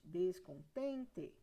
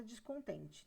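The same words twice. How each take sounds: First: "Descontente" slowly split, des-con-TEN-te, with TEN drawn out; syllable by syllable. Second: Said in the usual way. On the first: Shown as a demonstration. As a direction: say "Descontente" in slow separate syllables, full E at the end. ("Descontente" escandido devagar, alongando o TEN) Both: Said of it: "Qual que é a sílaba mais forte?".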